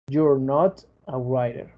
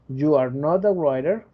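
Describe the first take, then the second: First: You and are are joined into you're. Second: Every word is said in full, uncontracted. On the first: "contraer el you con el are" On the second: "Cuando te lo dicen completo es que están poniendo énfasis"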